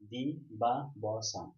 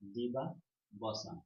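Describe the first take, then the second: First: The word is split with pauses between syllables. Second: The word is said smoothly as one unit.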